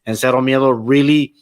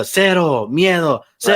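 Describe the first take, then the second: First: Said in the usual way. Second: Mocking catchphrase. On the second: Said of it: "when he kept doing the".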